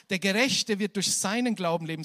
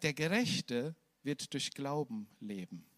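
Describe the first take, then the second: First: Seinen lauter und betont, der Rest gleichmäßig; stress on seinen. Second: Slow and softer, no word singled out; without seinen, calm. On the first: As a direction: lean hard on seinen, louder throughout. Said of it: "Er sagt im Neuen Testament nicht". (Betonung auf „seinen“, laut gepredigt) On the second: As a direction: let it land gently, slowly. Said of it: "sondern er sagt". (ruhig und langsam, ohne „seinen“) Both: Shown as a demonstration.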